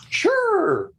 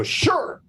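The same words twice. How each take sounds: First: A much higher, falling "Sure."; eager sure. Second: A much higher "Sure." that rises at the end; eager sure. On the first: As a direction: squeak out "Sure." way up high as the delighted client. Client voiced agreeing eagerly. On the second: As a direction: toss up a high, rising "Sure." like a pleased client. Client voiced agreeing again. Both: Retold or imitated.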